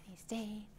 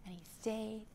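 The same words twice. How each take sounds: The two takes are said the same way.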